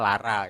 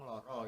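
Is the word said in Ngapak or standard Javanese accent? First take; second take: Ngapak; standard. First: It is said with Ngapak a vowels. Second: It is said with standard Javanese o vowels.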